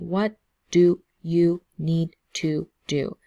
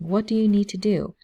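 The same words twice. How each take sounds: First: Each word is said separately with small breaks. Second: The words run together without any breaks. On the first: The speaker calls it wrong. "we don't say" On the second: The speaker calls it right. "We just connect everything"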